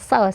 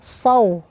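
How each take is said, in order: First: The s sound is light and thin. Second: The s sound is heavy and thick. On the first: The speaker calls it wrong. "dibaca tipis akan mirip menjadi sin" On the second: The speaker calls it right. "Tapi tebalkan"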